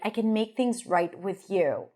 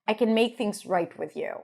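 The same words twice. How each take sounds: First: The final word 'you' is clearly stressed. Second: The final word 'you' is not stressed. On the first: "I like it how she stresses the you at the end" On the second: "I think I would have pronounced it or said it"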